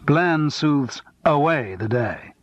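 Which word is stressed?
away. The word away carries the stress.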